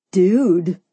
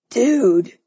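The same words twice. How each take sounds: First: Falling, confirming "Dude"; answering. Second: Stressed, falling "Dude"; startled male "Dude"; exclaiming. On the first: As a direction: answer knowingly, pitched under the first. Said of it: "Simon answered". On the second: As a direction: exclaim it to a buddy. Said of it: "Neil exclaimed". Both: A narrator's reading.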